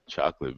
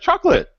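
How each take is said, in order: First: It is said in a deep, smooth, crooning voice. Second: It is said in an ordinary speaking voice. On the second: "You're like chocolate"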